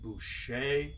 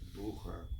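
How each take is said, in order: First: The name is said the French way. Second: The name is said the German way. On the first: This is how French speakers say it. "French pronounced it Boucher" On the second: This is how German speakers say it. "The Germans pronounced it Bucher"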